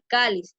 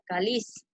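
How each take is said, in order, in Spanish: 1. El acento cae en la primera sílaba. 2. El acento cae en la última sílaba. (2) "diría"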